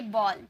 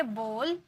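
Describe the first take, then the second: First: "बॉल" with an open aw; BALL vowel. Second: "बोल" with a rounded oh; BOWL vowel. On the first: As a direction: lower "बॉल", jaw dropped on the o. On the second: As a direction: softly model "बोल" with a closed o. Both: Shown as a demonstration. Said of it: "ये दोनों में क्या फर्क है?".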